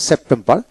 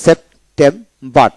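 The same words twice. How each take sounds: First: Said in the usual way. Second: সেপ্টেম্বর slowly split into three syllables. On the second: Shown as a demonstration. Teacher shows three syllables, saying সেপ্টেম্বর slowly in parts. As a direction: pause between the three beats of সেপ্টেম্বর. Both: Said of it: "তিনটা syllable".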